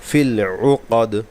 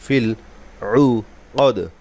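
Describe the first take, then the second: First: The phrase is said smoothly without breaks. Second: The phrase is broken up with small pauses.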